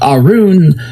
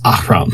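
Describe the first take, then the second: First: The name is said with a soft opening sound. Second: The name is said with a harsh throaty sound. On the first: The speaker calls it wrong. "it's a little too soft" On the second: The speaker calls it right. "sounds better"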